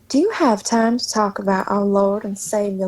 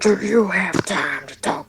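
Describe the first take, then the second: First: A southern accent in a normal voice. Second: A southern accent in a rough, hoarse voice. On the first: "in a southern accent" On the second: "in Venom voice with a southern accent"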